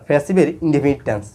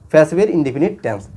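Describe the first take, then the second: No difference in how they are said.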